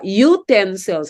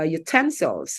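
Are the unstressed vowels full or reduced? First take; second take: full; reduced. First: Every vowel is pronounced fully, as spelled. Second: The unstressed vowels are reduced and weakened. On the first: The speaker calls it wrong. "we say uh, utensils" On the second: The speaker calls it right. "when it should be"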